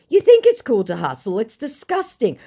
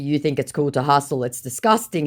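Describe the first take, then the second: First: Higher, louder disgusted retort; indignant reply. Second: Said in the usual way. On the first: Retold or imitated. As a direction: spit it out with disgust. Original reply vs recap.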